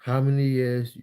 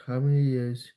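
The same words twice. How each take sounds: The two takes are said the same way.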